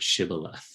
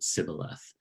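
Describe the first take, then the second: First: The word begins with a sh sound. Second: The word begins with an s sound. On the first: The speaker calls it right. "ask everyone to say this word Shibboleth" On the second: The speaker calls it wrong. "couldn't pronounce the sh, would pronounce it Sibboleth"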